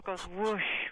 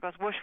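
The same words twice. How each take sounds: First: The whooshes are spaced out slowly. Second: The whooshes come quickly, close together.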